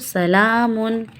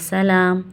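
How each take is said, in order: First: The word ends with an added 'un' sound. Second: The word ends on a bare m sound. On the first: The reciter continues without stopping. "नहीं रुक रहे तो" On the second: The reciter stops after this word. "अगर रुक रहे हैं तो फिर जस्ट हम मीम पे जज्म लगा के पढ़ेंगे"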